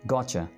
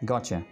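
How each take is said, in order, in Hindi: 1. शब्द मिलकर एक शब्द बन जाते हैं। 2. शब्द मिलकर एक शब्द बन जाते हैं।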